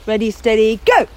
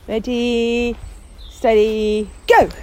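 First: It is said assertively, with more force. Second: It is said meekly, without assertion.

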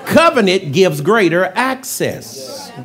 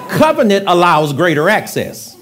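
First: It is said slowly and deliberately. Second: It is said at a normal, quicker pace.

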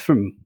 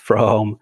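First: The vowel is reduced to a weak schwa. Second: The vowel is a full, strong vowel. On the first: The speaker calls it right. "but pronounced as from" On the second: The speaker calls it wrong. "is not pronounced as from"

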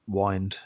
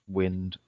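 First: The vowel is long, as in 'wine'. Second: The vowel is short, as in 'win'. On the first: This is how it was said in those days. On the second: This is the usual pronunciation.

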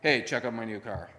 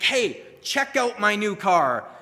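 First: It is said in a flat, bored tone. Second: It is said in an excited tone.

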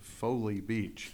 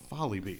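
First: The first vowel sounds like 'foe'. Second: The first vowel sounds like 'fall'. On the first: The speaker calls it wrong. "You're Saying It Wrong" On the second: The speaker calls it right. "it's pronounced the exact way it always has been"

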